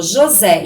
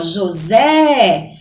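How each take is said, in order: First: Said in the usual way. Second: "José" with the last syllable drawn out long, as if calling; calling-out stress. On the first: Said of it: "aqui, por exemplo". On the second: Shown as a demonstration. Teacher calls out a name to find the stressed syllable, drawn-out calling stress. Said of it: "como se a gente fosse chamar alguma palavra".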